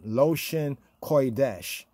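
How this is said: It is said with a Yiddish pronunciation. The speaker calls it wrong. "in the Yiddish way"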